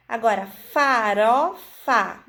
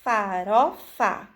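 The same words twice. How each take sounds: First: Farofa said slowly, syllable by syllable; slow syllable demo. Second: Farofa stretched, each syllable apart; very slow demo. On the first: Teacher to children, slowly sounding out syllables. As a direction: draw out farofa: fa, ro, fa. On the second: Teacher showing children the ró breaks the pattern, very slowly. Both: Shown as a demonstration. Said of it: "Nós cortamos a sequência com o ró".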